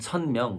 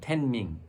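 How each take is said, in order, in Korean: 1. 한국식 발음으로 읽습니다. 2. 중국식 발음으로 읽습니다. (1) "우리는 천명 그러고" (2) "중국 텐밍"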